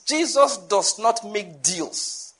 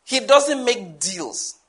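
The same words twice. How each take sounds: First: Each word set apart, slowly; slow emphatic statement. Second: Slow emphatic repeat. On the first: Preacher to congregation, slow and weighty. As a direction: spell it out slowly so it lands. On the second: Preacher repeating his point, slow and deliberate. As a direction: repeat it slower, word by word. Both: Shown as a demonstration. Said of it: "I need to say that again".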